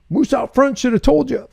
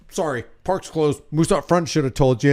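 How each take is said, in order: First: Higher, sing-song deadpan quip; mock John Candy. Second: Softer, flat deadpan guard voice; John Candy line. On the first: Mocking the fake news, a higher playful movie quote. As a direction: toss the movie line off in a high teasing voice. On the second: Retold or imitated. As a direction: mutter it like a bored park guard. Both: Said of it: "John Candy comes out and goes".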